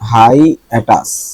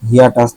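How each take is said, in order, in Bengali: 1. প্রথম সিলেবলটি 'high' এর মতো শোনাচ্ছে। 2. প্রথম সিলেবলটি 'hee' এর মতো শোনাচ্ছে। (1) "এটা হবে হাই" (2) "হিয়াটাস না"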